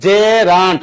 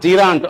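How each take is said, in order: First: The first vowel sounds like 'e' in bed. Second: The first vowel sounds like 'ee' in see. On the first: The speaker calls it right. "উচ্চারণ কি জেরান্ট" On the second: The speaker calls it wrong. "Not জিরান্ট"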